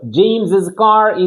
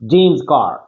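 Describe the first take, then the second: First: An extra 's' syllable follows the name. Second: No extra syllable follows the name. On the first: The speaker calls it wrong. "الا قلنا جيمس كار غادي نتعكلوا" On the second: The speaker calls it right. "خصنا اش نحيدوها ونقولوا غير جيمس كار"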